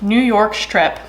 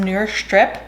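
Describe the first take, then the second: First: The phrase is pronounced in a normal way. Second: The phrase is pronounced in an odd way. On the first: The speaker calls it right. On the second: The speaker calls it wrong.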